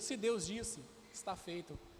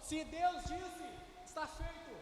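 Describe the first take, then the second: First: It is said with medium, raised intensity. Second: It is shouted with full force.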